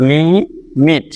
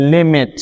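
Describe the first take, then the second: First: লিমিট very slowly, as "lii", pause, "mit"; split in two. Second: Said in the usual way. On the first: Shown as a demonstration. Teacher breaking the word once for learners, লিমিট split into two syllables. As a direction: say লিমিট in two separate beats, long first syllable. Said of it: "দুইবারে বলতে হচ্ছে". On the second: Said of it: "সুতরাং এখানে দুইটি syllable".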